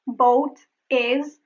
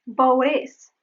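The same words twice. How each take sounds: First: "Boat is" apart, with a clear T; separated words. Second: "boat is" as one word, T tapped; linked flap T. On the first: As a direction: pause between "Boat" and "is". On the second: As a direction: flick from "boat" into "is". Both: Shown as a demonstration. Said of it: "There is the flap T".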